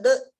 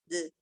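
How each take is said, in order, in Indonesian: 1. Pantulan d itu tebal dan mengarah ke atas. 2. Pantulan d itu ringan dan mengarah ke bawah. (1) "beda dengan de, arah ke atas" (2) "arahkan ke bawah"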